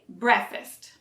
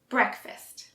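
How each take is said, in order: First: The K sound is dropped from the word. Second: The K sound is softly pronounced in the word. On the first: The speaker calls it wrong. "So don't say breakfast" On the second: The speaker calls it right. "You need to pronounce the K"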